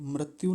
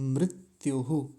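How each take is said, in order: First: The word ends plainly on the vowel 'u'. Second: The word ends with an echoed 'hu' after 'u'. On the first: The speaker calls it wrong. "मृत्यु नहीं" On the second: The speaker calls it right. "मृत्युहु ऐसा बोलेंगे"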